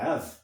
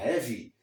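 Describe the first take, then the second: First: "have" as one syllable, ending on v; crisp demo of "have", silent E; verb have. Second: "heavy" in two syllables, ending in ee; adjective heavy. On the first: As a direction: say "have" with no vowel after v. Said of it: "Se você disser have". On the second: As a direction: say "heavy" with a final ee sound. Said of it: "Se você disser heavy". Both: Shown as a demonstration.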